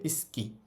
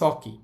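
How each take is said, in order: First: The vowel after the s is dropped. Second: The vowel after the s is fully pronounced. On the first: The speaker calls it right. "যখন দ্রুত বলে তখন এটার উচ্চারণ হবে" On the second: The speaker calls it wrong. "Normally উচ্চারণ করলে"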